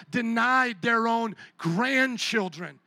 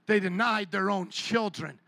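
First: Denied stretched out slowly, each word weighed; slow stress on denied. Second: Said in the usual way. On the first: Shown as a demonstration. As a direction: lean hard and slow on denied, grandchildren lands heavy.

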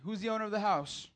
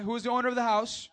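First: Said in the usual way. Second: High, loud call-out to the crowd; louder call. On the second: Shown as a demonstration. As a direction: demand the answer. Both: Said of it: "Say it like we know it".

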